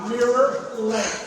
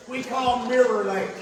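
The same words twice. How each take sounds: First: Mirror Lake drawn out slowly; slow emphatic naming. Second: Said in the usual way. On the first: Shown as a demonstration. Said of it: "That's why we call it". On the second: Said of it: "That's why we call it Mirror Lake".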